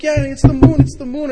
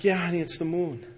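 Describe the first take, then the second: First: High, loud, thrilled dad; excited. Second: Said in the usual way. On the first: Retold or imitated. Dad answering his daughter about the moon, very excited. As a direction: share the child's thrill at full pitch. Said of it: "And I'm so excited".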